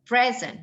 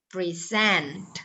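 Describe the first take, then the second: First: The stress is on the first syllable. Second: The stress is on the second syllable. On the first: It is a noun meaning a gift. "Noun. ... kalau dia noun penekanannya di awal" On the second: It is a verb. "Tapi kalau present, present, di mana penekanannya?"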